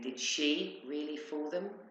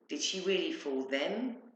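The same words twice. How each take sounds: First: The stress falls on the word she. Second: The stress falls on the word them. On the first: It questions whether that particular person did it. "As in her, really?" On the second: It questions whether such clever people were deceived. "Because they seemed very intelligent and not easily fooled"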